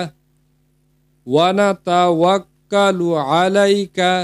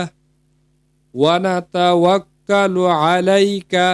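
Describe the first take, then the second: The two takes are said the same way.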